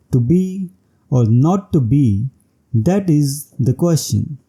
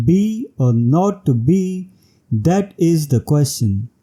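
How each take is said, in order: First: Said in the usual way. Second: Line opening on a slow, stressed "Be"; stressed first syllable. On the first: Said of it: "following line of iambic pentameter". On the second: Shown as a demonstration. Teacher showing a headless iambic line, stress on opening "Be". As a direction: start straight on "Be", giving it the stress. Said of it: "starts with a stressed syllable".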